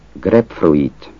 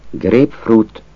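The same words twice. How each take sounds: First: Grapefruit as grep-froit; spelled-out grapefruit. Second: Grapefruit as grép-frut; grapefruit, Hungarianized; Hungarian grapefruit. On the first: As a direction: say grapefruit with an oi sound. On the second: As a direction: say grapefruit with an ú ending. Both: Shown as a demonstration. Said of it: "Azt a kiejtés változatot".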